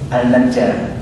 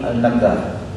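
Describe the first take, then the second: First: The middle consonant is a soft j sound. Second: The middle consonant is a hard g sound.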